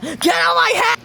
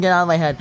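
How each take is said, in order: First: High-pitched strained scream; mock scream. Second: Said in the usual way. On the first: Acting out the end of Joey's quote, mock scream. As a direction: scream it as a sudden outburst. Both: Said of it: "She even copied the scream at the end".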